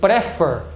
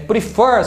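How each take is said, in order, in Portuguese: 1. O acento está na primeira sílaba. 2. O acento está na última sílaba. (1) "se você achar que for prefer, não dobraria" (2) "a palavra prefer é prefer"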